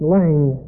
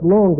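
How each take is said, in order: First: "Lang" said the English way, in one syllable; English pronunciation. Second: "Lange" said the German way, in two syllables; German pronunciation. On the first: Teacher showing the class the English name, "Lang" in one syllable. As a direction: drop the final vowel, just "Lang". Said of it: "In English, it would be pronounced". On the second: Teacher showing the class the German name, "Lange" in two syllables. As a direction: sound the final e in "Lange". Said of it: "in German, I guess it would be pronounced". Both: Shown as a demonstration.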